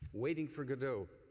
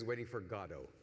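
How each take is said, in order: First: Godot is said the American way. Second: Godot is said the British way. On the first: "That's the way we Americans tend to think of it" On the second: "Brits and Irish people almost exclusively think of it as"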